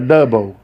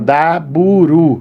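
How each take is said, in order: First: It ends in a plain L sound. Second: It ends with an added R and vowel.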